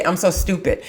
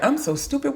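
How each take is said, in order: First: Said in the usual way. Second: Soft, high-pitched mimicry; mock screech. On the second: Teacher mimicking students' self-talk that grates on her, mock screech. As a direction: squeak it out small and high, imitating someone. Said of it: "like hearing nails screeching down a chalkboard".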